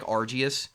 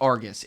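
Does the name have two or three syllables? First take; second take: three; two. First: The name is said with three syllables. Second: The name is said with two syllables. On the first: The speaker calls it right. "It's like Argius" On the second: The speaker calls it wrong. "It's not Argus"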